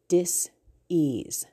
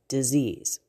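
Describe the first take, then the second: First: The word is split with a break between parts. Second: The word is said smoothly as one whole. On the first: The body is not at ease. "the word would come out of the one mouth and the back part of the word" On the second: An illness. "and then they'd come together"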